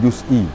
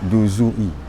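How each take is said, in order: First: The z has no vowel after it. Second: The z is followed by a u vowel. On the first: The speaker calls it wrong. "bukan juz'i" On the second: The speaker calls it right. "diharakatkan zai dengan dhammah"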